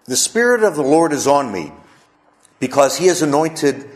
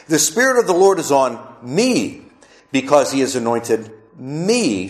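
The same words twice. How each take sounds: First: Said in the usual way. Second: Pause, then a long, emphatic "me"; stress on "me". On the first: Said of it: "I'm gonna say it with some emphasis". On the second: Shown as a demonstration. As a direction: lean hard on each "me", holding it. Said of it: "say it with some emphasis, the emphasis on the word me".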